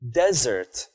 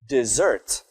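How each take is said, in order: First: The stress is on the first syllable. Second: The stress is on the second syllable. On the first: It is a dry place with few plants. "You put the stress on the first syllable of the word" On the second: It is a verb. "what if I put a stress on the second syllable of the word?"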